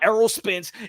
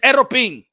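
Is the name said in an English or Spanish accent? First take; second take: English; Spanish. First: The name is said with English pronunciation. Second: The name is said with Spanish pronunciation. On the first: The speaker calls it wrong. "it's not Aerospins" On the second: The speaker calls it right.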